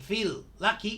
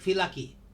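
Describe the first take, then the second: First: Both L sounds are pronounced separately. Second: The two L sounds merge into one. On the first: The speaker calls it wrong. "Instead of saying" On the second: The speaker calls it right. "we pronounce the L once"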